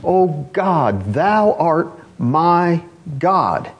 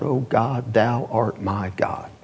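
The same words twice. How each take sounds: First: Slow, drawn-out, fervent plea; an earnest cry to God, stretched out. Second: Slow and softer, almost prayed; a soft, drawn-out prayer upward; hushed cry to God. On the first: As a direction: plead each word slowly from the soul. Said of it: "He's crying out from the depths of his soul". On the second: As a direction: murmur it reverently and slow. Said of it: "looks up into heaven and cries out". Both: Retold or imitated.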